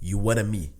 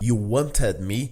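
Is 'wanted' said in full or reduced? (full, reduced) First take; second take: reduced; full. First: Wanted is reduced and run together with me. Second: Wanted is said in full, with its t sounds. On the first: The speaker calls it right. "ele fala you wanna me" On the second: The speaker calls it wrong. "Em vez de ele falar you wanted me"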